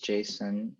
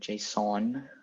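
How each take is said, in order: First: It sounds like the name Jason. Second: It does not sound like Jason. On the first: The speaker calls it wrong. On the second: The speaker calls it right.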